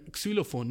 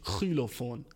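First: Xylophon opening with a crisp ks. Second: Xylophon opening on a rasped kh; mock mispronounced Xylophon, starting kh; wrong throaty X. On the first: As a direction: say Xylophon normally, k-s first. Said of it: "nicht Xylophon". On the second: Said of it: "Sag mir Xylophon". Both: Shown as a demonstration.

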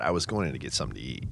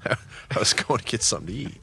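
First: Said in the usual way. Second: Laughing. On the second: Real, not acted.

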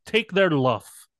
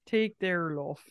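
First: "luff" said slowly with a short u, rhyming with cuff; old Shakespeare pronunciation. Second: "luff" said with an open o sound, rhyming with cough; old pronunciation luff. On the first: Friend demonstrating old Shakespeare pronunciation of love. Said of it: "in the old Shakespeare accent, though, it's something like luff". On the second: Friend echoing old Shakespeare pronunciation, "luff". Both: Shown as a demonstration.

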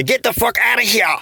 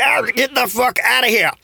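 First: Mock exasperated yelp. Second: High, strained "get the fuck outta here"; mock exasperated yelp. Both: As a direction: squeal it out, fed up with the hot water. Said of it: "why you say it like that".

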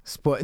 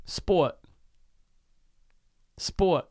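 First: Sport ending on a crisp T, New York style; New York Sport, tongue on the teeth; New York accent. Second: Sport with the T tapped behind the front teeth; a New York Sport; New York accent try. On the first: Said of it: "that begins with a T". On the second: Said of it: "Give me a word". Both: Shown as a demonstration.

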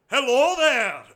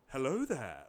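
First: Higher, loud mock hello; monster's greeting. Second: Low, soft mock greeting; lightly voiced film-hero hello, pitched down; Obi-Wan Kenobi. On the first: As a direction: call out a big, pitched-up greeting. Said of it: "but he would be like". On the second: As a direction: drop low and quiet for a courtly hello. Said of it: "like, like Obi-Wan Kenobi".

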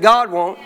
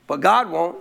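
First: GOD hit harder, won't lands firm; louder repeat. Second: Said in the usual way. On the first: Shown as a demonstration. Pastor repeating to the church, louder. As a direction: punch "God" as you say it again. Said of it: "I said, "God won't". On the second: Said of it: "I said".

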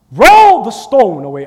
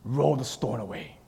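First: Louder, slower, firm command to roll the stone; commanding call. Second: Said in the usual way. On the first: Shown as a demonstration. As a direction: order it with authority, slowly. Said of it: "How, how do you say that?". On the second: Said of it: "I wonder how he said it".

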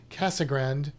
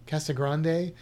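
First: Casagrande said "CASS-uh-grand", silent final e, flat a; reading Casagrande the English way, "grand" at the end; Anglicized pronunciation. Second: Casagrande said "CASS-uh-grahn-day", broad a, final e sounded; Spanish-style pronunciation. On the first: Guessing at a co-host's name, Casagrande read the English way. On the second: Second try at the cameraman's name, Casagrande as "grahn-day". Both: Shown as a demonstration. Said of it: "I don't know how you say his name".

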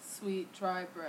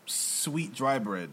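First: Slow, flat repeat; slow echo. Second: Slowly, word by word; slow deliberate. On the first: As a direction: repeat it back slowly. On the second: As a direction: spell it out slowly. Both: Shown as a demonstration.

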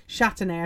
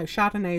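First: "Chardonnay" said as SHAT-uh-nay, the carrot name; short "a" and a "t" in "Chardonnay", as SHAT-uh-nay; carrot variety pronunciation. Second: Chardonnay said like the wine, SHAR-duh-nay; wine pronunciation. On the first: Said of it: "I think they're called". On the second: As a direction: say "Chardonnay" with an open "ah" in the first syllable. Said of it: "no, Chardonnay is wine". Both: Real, not acted.

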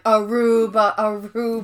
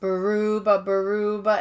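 First: "Aruba" opening on a vowel, no B; "Aruba, Aruba", starting with "uh" before "ruba"; Kevin. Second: Sung, "Baruba" with an added B at the start; sung, say "Baruba" twice, opening on a B; sung, "Baruba, Baruba", B sound before the "ruba"; sung-out word variant. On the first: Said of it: "and then Kevin's like". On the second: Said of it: "that's what Kevin says". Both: Retold or imitated.

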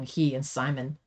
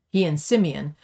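First: "Simon" said as SY-mun, like the English name; misread name. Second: "Simeon" said as SIM-ee-un, three syllables; corrected name. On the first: Reader misreads the brother's name as "Simon". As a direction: misread as "Simon", two syllables. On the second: Reader corrects the brother's name, "Simeon" SIM-ee-un. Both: Real, not acted.

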